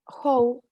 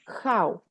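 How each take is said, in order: First: The vowel sounds like a plain 'oh'. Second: The vowel glides like 'ow'. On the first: It sounds like a rude word. The speaker calls it wrong. "if you say how, you are saying a bad word" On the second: It is the intended word. The speaker calls it right. "So the correct word to say this word is how"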